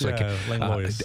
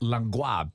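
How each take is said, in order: First: The final s is clearly pronounced. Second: The final s is silent, French style. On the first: This is the everyday family pronunciation. "I pronounced that S" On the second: This is the original French pronunciation. "The origin of that is Langlois. It's a French name"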